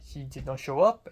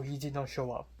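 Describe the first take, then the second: First: Imitated French accent with UP lifted high; French accent, rising ending. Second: UP dropped rather than lifted; falling ending. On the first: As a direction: mimic her slip, louder, "up" rising. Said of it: "makes the last syllable high". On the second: Shown as a demonstration. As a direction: correct it, letting "up" fall at the end. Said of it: "Just don't, don't do the thing".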